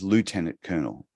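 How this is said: Lieutenant is said the American way. "America says lieutenant colonel"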